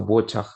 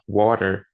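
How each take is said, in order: First: It is said in a British accent. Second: It is said in an American accent. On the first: "um britânico vai, vai pronunciar" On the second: "Um americano vai pronunciar"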